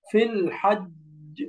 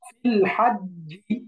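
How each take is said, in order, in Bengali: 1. বাক্যাংশটি একটি জোরালো ঝাঁকুনি দেওয়া ব্যঞ্জনে শেষ হয়। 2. বাক্যাংশটি শেষে একটি স্বরবর্ণে মসৃণভাবে শেষ হয়।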